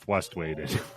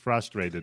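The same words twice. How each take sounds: First: No clear R sound follows the F. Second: A clear R sound follows the F. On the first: The speaker calls it wrong. "not frustrated" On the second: The speaker calls it right. "there's an R at the beginning"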